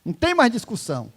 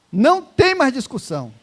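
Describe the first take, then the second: First: Said in the usual way. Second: Louder, higher, hitting "tem" hard; emphatic repeat. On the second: Shown as a demonstration. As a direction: drive "tem" home with force. (repetição enfática, mais alta, com força no "tem")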